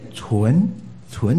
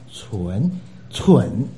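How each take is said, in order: First: Chun is said with a rising second tone. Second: Chun is said without a rising tone. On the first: It means pure. The speaker calls it right. "二声啊" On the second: It means stupid. The speaker calls it wrong. "那就是笨笨的纯"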